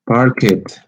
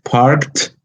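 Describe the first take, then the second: First: The ending is an extra syllable. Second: The ending is a plain t sound. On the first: The speaker calls it wrong. "if you add a syllable, you might you are going to pronounce this way" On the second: The speaker calls it right. "the ed is pronounced as a t"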